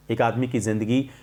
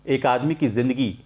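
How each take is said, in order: Both takes have the same delivery.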